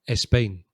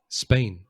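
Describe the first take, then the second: First: An extra e vowel comes before the s. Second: The word begins directly with an s sound. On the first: "like an extra sound" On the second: "It begins with a s sound"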